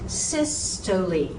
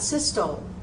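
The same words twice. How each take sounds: First: The word is said with three syllables. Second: The word is said with two syllables. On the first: The speaker calls it right. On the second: The speaker calls it wrong.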